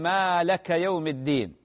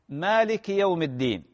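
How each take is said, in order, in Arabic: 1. الكلمة الأولى لا تنتهي بـ'i'. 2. تنتهي الكلمة الأولى بالحركة 'i'. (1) "بطلت صلاته. لماذا؟ لأنه نفى الملك عن الله" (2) "وهي مالكي"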